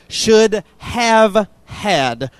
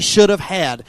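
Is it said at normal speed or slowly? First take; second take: slowly; normal. First: It is said slowly. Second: It is said at normal speed.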